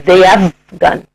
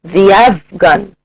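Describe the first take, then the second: The two takes are said the same way.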